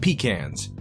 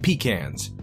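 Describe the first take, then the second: First: It uses the speaker's East Coast pronunciation. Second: It uses the speaker's East Coast pronunciation.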